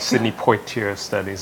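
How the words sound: The name is said with a Bahamian pronunciation.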